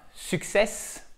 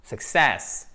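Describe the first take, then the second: First: Success with the weight on the first syllable, French-style; wrongly stressed success. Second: Success with the weight on the second syllable, -CESS; slow "success", short first syllable and long stressed -cess; correctly stressed success. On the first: Teacher showing learners what not to say, misstressed success. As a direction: drag out "success", leaning wrongly on suc-. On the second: Teacher modelling the tonic accent for learners, success stressed on -cess. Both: Shown as a demonstration. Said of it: "notre accent tonique qui est là".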